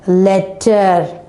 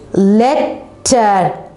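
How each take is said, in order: First: Said in the usual way. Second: "Letter" cut into let and ter; split into syllables. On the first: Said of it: "we can easily pronounce the word". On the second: Shown as a demonstration. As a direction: say "Letter" in two beats with a pause. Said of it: "divide the word into two".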